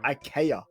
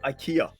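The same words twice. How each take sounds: First: The word is pronounced with Swedish vowels and stress. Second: The word is pronounced with English vowels and stress. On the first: This is how native speakers say the name. "So the Swedes they say it IKEA" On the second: This is how English speakers usually say the name. "You know how we call it IKEA"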